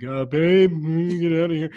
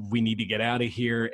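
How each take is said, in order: First: Mock call up to another floor; raised, higher voice, as if calling upstairs; imitating a yell from two floors down; retold yell upstairs. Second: Said in the usual way. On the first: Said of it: "yelling up, like, two sta-, stories". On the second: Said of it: "I was like".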